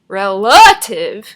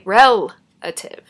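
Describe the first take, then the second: First: The stress is on the second syllable. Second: The stress is on the first syllable. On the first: The speaker calls it wrong. "We don't say relative" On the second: The speaker calls it right. "We say relative. The stress is on the first syllable"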